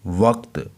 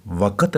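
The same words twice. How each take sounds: First: "वक्त" as one syllable, no vowel between क and त; correct pronunciation. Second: "वक़्त" broken into two syllables, wa-kat; mispronunciation. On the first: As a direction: say "वक्त" with the consonants क्त run together at the end. ("वक्त" एक ही syllable में, क पर जज़्म) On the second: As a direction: put an extra short a between क and त in "वक़्त". ("वक़्त" को ग़लत तरीके से व-कत बोलना) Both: Shown as a demonstration. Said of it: "वक़्त नहीं है".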